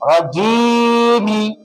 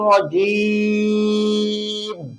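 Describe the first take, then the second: First: The word ends with a final i vowel. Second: The word ends on the m consonant. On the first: The word is being spelled out letter by letter. "যখন বানান করবো তখন মিম জের মি রাজিমি বলবো" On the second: The word is being read in full recitation. "যখন পরে উচ্চারণ করবো তখন রাজিম বলবো"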